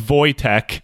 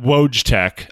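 First: The name is said in the Polish way. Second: The name is said in an anglicized way. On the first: The speaker calls it right. "It's Wojtek" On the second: The speaker calls it wrong. "not Wojtek"

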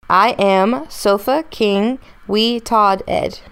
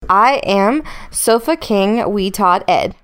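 First: It is said slowly, word by word. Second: It is said at a medium pace.

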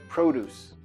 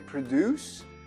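First: The stress is on the first syllable. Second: The stress is on the second syllable. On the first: It is the noun meaning fresh vegetables. "mas a pronúncia é diferente, como substantivo" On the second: It is the verb meaning to make. "Escreve igual produzir, que é produce"

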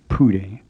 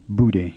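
First: It starts with an English-like P sound. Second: It starts with an English-like B sound. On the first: "it isn't quite like an English P, which would make the word sound like Pude" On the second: "it's not like an English B, which would make it sound like Bude"

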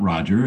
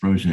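First: The name is said with an English pronunciation. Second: The name is said with a French pronunciation. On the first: The speaker calls it wrong. "it's not Roger" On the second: The speaker calls it right. "it's Roger, is from Francophone country"

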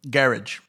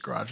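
First: It is said with a British pronunciation. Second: It is said with an American pronunciation.

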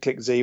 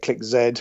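First: The letter is said the American way, 'zee'. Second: The letter is said the British way, 'zed'.

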